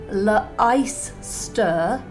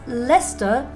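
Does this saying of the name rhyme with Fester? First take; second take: no; yes. First: The name is said as it is written. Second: The name is said to rhyme with Fester. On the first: "It's written Leicester" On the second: "pronounced Leicester to rhyme with Uncle Fester"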